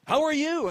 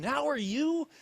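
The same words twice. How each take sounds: First: High, loud, squeaky greeting; nervous squeak. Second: High, self-mocking echo; mocking own question. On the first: Retold or imitated. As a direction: act out an over-pitched, nervous phone greeting. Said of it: "I squeak out". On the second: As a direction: parrot your own question back in scorn. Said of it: "what a stupid question".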